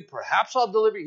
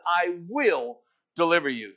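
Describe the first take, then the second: First: Quick, offhand "perhaps I'll deliver you"; doubtful maybe. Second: Firm stress on "will" in "I will deliver you"; emphatic declaration. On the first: Pastor mocking a half-promise, quick and offhand. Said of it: "He's not saying". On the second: Pastor declaring God's promise, "will" stressed firmly. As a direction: land hard on "will", a sure promise. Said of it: "God says this with an emphatic declaration". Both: Shown as a demonstration.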